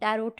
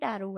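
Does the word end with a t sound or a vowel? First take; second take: t sound; vowel. First: The word ends with a pronounced t sound. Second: The word ends in a vowel, without t. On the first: The speaker calls it wrong. "टैरोट नहीं बोलते" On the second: The speaker calls it right. "इसको बोलते हैं टैरो है"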